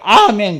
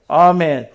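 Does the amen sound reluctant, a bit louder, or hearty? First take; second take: hearty; reluctant. First: It is said heartily and with full release. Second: It is said reluctantly and half-heartedly.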